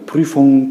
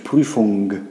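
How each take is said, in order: First: The ending is said in a natural way. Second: The ending is strongly exaggerated. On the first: The speaker calls it right. "ale ogólnie brzmi to Prüfung" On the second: The speaker calls it wrong. "To już tak mega przesadnie"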